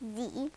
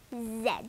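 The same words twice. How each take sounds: First: The letter is said the American way. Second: The letter is said the British way.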